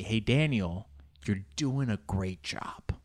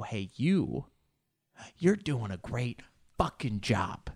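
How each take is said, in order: First: Slow, breathy whisper; wished-for whisper. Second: Sincere encouragement. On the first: Retold or imitated. Imagining the instructor whispering praise to him. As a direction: whisper the praise you long to hear. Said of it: "I just want her to say". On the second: Real, not acted. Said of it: "I want you to know".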